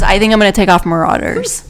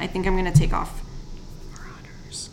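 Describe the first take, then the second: First: The sentence is said loudly. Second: The sentence is said quietly.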